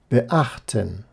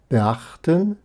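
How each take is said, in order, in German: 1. Ein Knacklaut trennt das Präfix vom Vokal. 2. Das Präfix geht direkt in den folgenden Vokal über. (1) "Die Vorsilbe ist phonetisch immer klar vom Restwort getrennt"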